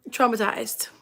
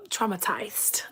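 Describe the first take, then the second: First: Said in the usual way. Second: Hushed, whispered repeat for effect; dramatic whisper. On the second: Real, not acted. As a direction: whisper it softly for emphasis.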